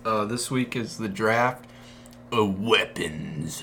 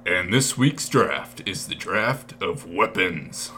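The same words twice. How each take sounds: First: Slow announcer read. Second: Slow, dramatic announcer drawl. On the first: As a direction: draw it out like a host. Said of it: "You're getting better at that". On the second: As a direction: boom it out like a game-show host. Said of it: "That's a good one to end on". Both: Acted.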